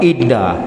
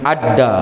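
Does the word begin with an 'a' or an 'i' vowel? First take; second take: i; a. First: The word begins with an 'i' vowel. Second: The word begins with an 'a' vowel. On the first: This is the better-known reading. "dibaca dengan baris bawah" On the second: This is a less common reading. "Kadang-kadang dibaca dengan adda"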